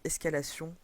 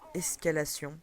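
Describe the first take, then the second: First: It is said with a French accent. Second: It is said with an English accent. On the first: "je repars à la française" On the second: "je donne l'accent anglais"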